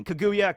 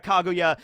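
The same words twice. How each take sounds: First: "Kaguya" as kuh-GOO-yuh; "Kaguya" the English dub way, kuh-GOO-yuh; dub pronunciation. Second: "Kaguya" as KAH-goo-yah; "Kaguya" with a clear "kah" at the front; alternative pronunciation. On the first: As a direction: reduce the first vowel of "Kaguya" to "kuh". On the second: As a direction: open the first vowel of "Kaguya" to "kah". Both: Shown as a demonstration. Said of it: "they say Kaguya in the English dub".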